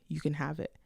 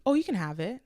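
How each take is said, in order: First: Said in the usual way. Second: Quick, eager, slightly raised offer of the camera. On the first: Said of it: "no need for me to say". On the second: Retold or imitated. To a friend admiring her camera, eagerly offering it. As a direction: blurt it out to please her. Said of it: "I said immediately".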